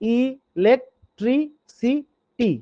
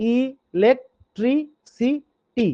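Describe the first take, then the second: First: The word is broken into separate syllables. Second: The word is broken into separate syllables.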